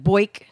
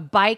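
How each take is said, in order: First: It is said in a Philadelphia accent. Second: It is said with a standard vowel.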